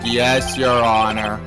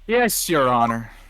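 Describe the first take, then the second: First: It is said with a flat, lifeless voice. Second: It is said with a lively, energetic voice. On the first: "I should have sounded like" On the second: "You said it with too much life in your voice"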